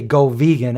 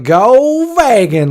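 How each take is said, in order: First: Said in the usual way. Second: Slow, drawn-out mock "Go vegan", pitched high; sarcastic. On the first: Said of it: "I don't have to say". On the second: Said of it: "we would say it sarcastic".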